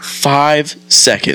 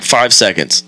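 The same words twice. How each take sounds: First: Slow, higher disbelieving question; stunned drawn-out echo; incredulous. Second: Said in the usual way. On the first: Retold or imitated. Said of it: "And I was like". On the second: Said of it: "He's like".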